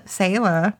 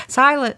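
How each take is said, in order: First: Said in the usual way. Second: "sailor" said as SIGH-luh; mispronounced name. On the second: Real, not acted. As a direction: say "sailor" with an "eye" vowel first. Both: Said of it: "I got that wrong".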